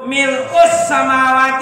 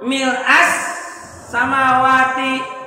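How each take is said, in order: First: The word is read with a final u vowel. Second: The word is read with a final a vowel. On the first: The word is the predicate of an omitted subject. "Yang baca mil'u" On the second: The word describes the state or circumstance. "Yang baca mil'a"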